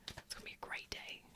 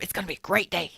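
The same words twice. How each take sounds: First: Breathy whispered echo. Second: Said in the usual way. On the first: Shown as a demonstration. Host echoes her promise to the chat in a whisper. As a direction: whisper it back like a secret.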